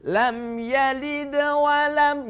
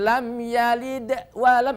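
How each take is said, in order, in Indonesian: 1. Frasa itu mengalir terus tanpa jeda. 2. Frasa itu terputus dengan jeda. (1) "nyambung ya" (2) "itu namanya putus ya"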